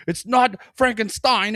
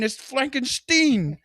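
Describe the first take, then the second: First: High, loud exasperated correcting; movie doctor voice. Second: Very high, slow, breaking into laughter; movie doctor voice, laughing. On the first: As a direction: insist on the name, high-pitched. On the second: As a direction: drag the name out while cracking up. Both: Retold or imitated. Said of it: "when he's like".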